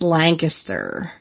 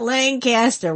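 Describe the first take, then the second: First: It is said the local Pennsylvania way. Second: It is said the California way. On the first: This is how locals say the town's name. The speaker calls it right. "if you want to be a Lancaster County person, it's Lancaster" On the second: This is how the name of the California town is said. The speaker calls it wrong. "Not Lancaster. We're not Lancaster, California"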